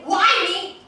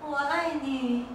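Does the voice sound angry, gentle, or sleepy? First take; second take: angry; sleepy. First: It is said harshly and angrily. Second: It is said drowsily and sleepily. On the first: "If you say it really angrily" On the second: "say it sleepily"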